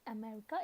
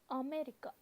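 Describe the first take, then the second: First: It is said with an English pronunciation. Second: It is said with Japanese syllables, a-me-ri-ka. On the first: The speaker calls it wrong. "not America" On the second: The speaker calls it right. "here it is always America"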